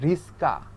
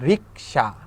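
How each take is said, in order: First: The s sound comes before the k sound. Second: The k sound comes before the s sound. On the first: "দন্তস্ব আগে আসে, কটা পরে যায়" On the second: "আগে ক পরে দন্তস্ব"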